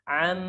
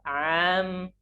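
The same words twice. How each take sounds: First: The first vowel is short and direct. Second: The first vowel is drawn out longer. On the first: The speaker calls it right. "Harusnya langsung" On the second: The speaker calls it wrong. "ainnya tambah"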